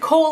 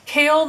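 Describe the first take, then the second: First: The name rhymes with the word 'hole'. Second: The name rhymes with the word 'hail'. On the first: "I always pronounced it Cole in my head" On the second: "I've heard people say Kale"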